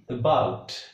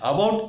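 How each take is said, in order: First: The first vowel is very short and weak. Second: The first vowel is a full vowel. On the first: The speaker calls it right. "The correct pronunciation is about" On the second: The speaker calls it wrong. "About is wrong pronunciation"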